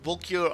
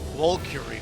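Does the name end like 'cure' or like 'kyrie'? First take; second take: cure; kyrie. First: The name ends with the word 'cure'. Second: The name is said like 'Valkyrie'. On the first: The name is read as being about curing. The speaker calls it wrong. "I went with the cure part" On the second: The name refers to the Valkyries. The speaker calls it right. "That's probably like the proper way to say it"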